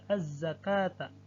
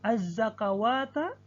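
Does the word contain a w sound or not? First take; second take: no w; w sound. First: No w sound is pronounced, only a long a. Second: A w sound is pronounced before the long a. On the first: The speaker calls it right. "namun alif yang dibaca" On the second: The speaker calls it wrong. "tertulis wawu"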